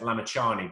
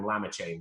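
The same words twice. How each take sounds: First: The name ends in a separate final vowel. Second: The name ends rhyming with the word plane. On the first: The speaker calls it right. "it's uh, Lamichhane" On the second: The speaker calls it wrong. "they used to mispronounce his name"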